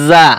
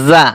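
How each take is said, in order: The two takes are said the same way.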